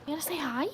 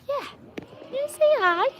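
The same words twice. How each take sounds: First: High, coaxing question; gentle pet talk. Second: Squeaky pet talk. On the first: Coaxing Jack to say hi, high pet talk. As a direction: lift the voice to prompt a pet. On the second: Repeats it to the animal, higher. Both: Real, not acted.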